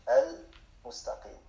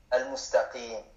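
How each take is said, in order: First: Al-mustaqim drawn out slowly, syllable by syllable; slow repeat. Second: Said in the usual way. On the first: Shown as a demonstration. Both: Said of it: "teacher says word, then repeats slowly".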